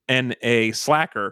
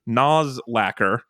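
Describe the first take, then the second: First: The first part is said as letters, 'N A'. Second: The first part is said as one word, 'noz'. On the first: The speaker calls it right. "when it is in fact NA Slacker" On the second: The speaker calls it wrong. "Alex likes to pronounce it Nozlacker"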